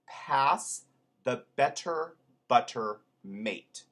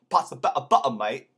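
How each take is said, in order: First: It is said in a neutral, non-Cockney accent. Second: It is said in a Cockney accent. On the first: "Here is a sentence I put together" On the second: "that becomes this in Cockney"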